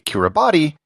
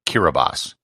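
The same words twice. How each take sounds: First: The 'ti' is said with a T sound. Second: The 'ti' is said with an S sound. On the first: The speaker calls it wrong. "what should be Kiribati" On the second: The speaker calls it right. "The letters T I form an S sound"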